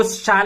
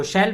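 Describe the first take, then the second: First: शाल with a long open a, shaal; shall as shaal. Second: शैल with a short e vowel, shell; shall as shell. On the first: Teacher telling students some say शाल as shaal. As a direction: say शाल with the broad aa vowel. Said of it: "कुछ कुछ लोग इसको शाल बोलेंगे". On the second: Teacher telling students others say शैल as shell. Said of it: "कुछ कुछ लोग इसको शैल बोलेंगे". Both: Shown as a demonstration.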